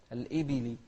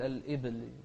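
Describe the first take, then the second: First: الإبل said libili, b with kasra. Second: الإبل said as alibl with a still b; the mistake; sukun on b. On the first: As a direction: open the b of الإبل with an i. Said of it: "الباء هني عليها كسرة". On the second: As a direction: clip the b in الإبل. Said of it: "لا تقول". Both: Shown as a demonstration.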